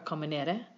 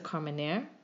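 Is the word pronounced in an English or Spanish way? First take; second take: Spanish; English. First: The word is pronounced the Spanish way. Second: The word is pronounced the English way.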